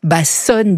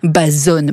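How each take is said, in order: First: The middle consonant is a hissing s sound. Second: The middle consonant is a voiced z sound. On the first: The speaker calls it wrong. "tout le monde prononce « Bassonne »" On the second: The speaker calls it right. "un S entre deux voyelles se prononce comme un Z"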